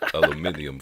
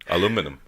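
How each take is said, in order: First: It is said the British way, five syllables. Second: It is said the American way, four syllables.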